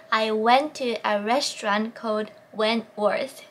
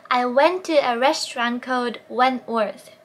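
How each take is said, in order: First: Calm drill repeat; slow practice again. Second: Very slow, lips rounded for each W; slow drill read; slow practice sentence. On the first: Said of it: "四回口を縦にしないといけない". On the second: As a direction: model it slowly for learners. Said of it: "練習問題を出す". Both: Shown as a demonstration.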